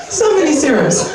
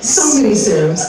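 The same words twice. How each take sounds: First: So many serums shouted higher through a laugh. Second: Said in the usual way. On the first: Real, not acted. Fed up with serum ads, laughing shout. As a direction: yell it out, cracking up.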